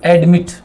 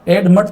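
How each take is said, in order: First: The second syllable has a clear 'i' vowel. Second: The second syllable has a reduced, unclear vowel. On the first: The speaker calls it right. "आई को बोला जा रहा है एडमिट" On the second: The speaker calls it wrong. "एडमट तो नहीं बोलते"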